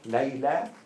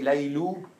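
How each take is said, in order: First: The name ends with an 'ah' vowel. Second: The name ends with an 'oo' vowel. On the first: The speaker calls it right. "Layla's right" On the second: The speaker calls it wrong. "I can say Laylu"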